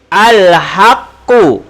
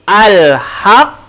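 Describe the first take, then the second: First: The word ends with a full final vowel. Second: The word stops on a strongly bounced consonant. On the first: The reading continues without stopping. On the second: The reader stops on this word.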